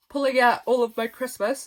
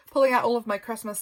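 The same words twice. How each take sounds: First: Real yawn pulling the words out of shape. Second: Said in the usual way. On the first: Real, not acted. Exhausted crafter yawning while describing her Christmas things. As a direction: push the words through a yawn. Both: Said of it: "sorry, I'm yawning again".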